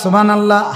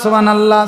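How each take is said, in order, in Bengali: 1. এটা দ্রুত বলা হয়, শেষের 'h' বাদ দিয়ে। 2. এটা দ্রুত বলা হয়, শেষের 'h' বাদ দিয়ে।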